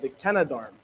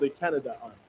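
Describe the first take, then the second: First: It is said as one blended word. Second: It is said as two separate words. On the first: The speaker calls it right. "Sorry, the Canadarm" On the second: The speaker calls it wrong. "not the Canada Arm"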